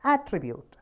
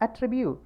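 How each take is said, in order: First: "attribute" as AT-tribute, falling after the AT; careful demo of "attribute", first syllable prominent; stress on first syllable. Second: "Attribute" as at-TRI-bute; light first syllable, raised TRI in "Attribute"; stress on second syllable. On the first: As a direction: punch the opening AT of "attribute". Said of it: "first syllable". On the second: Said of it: "second syllable". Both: Shown as a demonstration.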